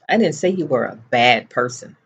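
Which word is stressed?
bad. The stress falls on the word bad. A different insult was said. "What I said was, you were a moron"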